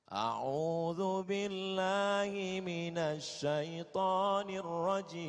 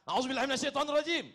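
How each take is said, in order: First: It is said in a calm voice. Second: It is said in an angry voice.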